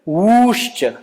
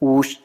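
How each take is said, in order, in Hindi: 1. स्वर को तीन मात्रा जितना खींचा जाता है। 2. स्वर को एक मात्रा जितना खींचा जाता है। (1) "यदि प्लुत ऊ तस्य प्लुत संज्ञा भवति" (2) "एकमात्रिकम् अस्ति चेत् ह्रस्व संज्ञा"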